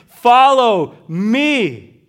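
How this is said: The stress is on the word me.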